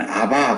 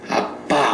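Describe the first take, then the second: First: The middle consonant is soft and plain. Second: The middle consonant is strong and tense. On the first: "그쪽에는 아바 그래요" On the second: "우리가 발음이 좀 세지요 ... 아빠 우리는 그렇게 하죠"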